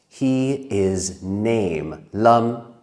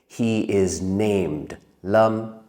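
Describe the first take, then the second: First: The word ends without a final D sound. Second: The word ends with a clear final D sound. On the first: The speaker calls it wrong. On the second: The speaker calls it right.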